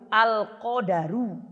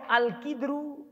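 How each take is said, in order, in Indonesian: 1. Vokal a mengikuti bunyi d. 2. Vokal i mengikuti konsonan pertama. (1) "Dalnya pakai fathah, bukan sukun" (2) "harokat qafnya kasro"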